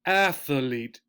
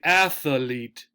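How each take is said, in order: First: It is said with three syllables. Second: The same.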